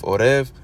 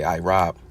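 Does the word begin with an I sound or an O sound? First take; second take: O sound; I sound. First: It starts with o and ends with v. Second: It starts with i and ends with b. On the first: This is the modern Hebrew pronunciation. "he's pronouncing it O R E V" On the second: This is the older pronunciation. "You would say Irab"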